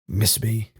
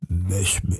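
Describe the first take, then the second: First: The voice sounds plain and natural. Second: The voice sounds heavily distorted and growly. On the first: "it's the least modulated I've heard" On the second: "Instead of the like"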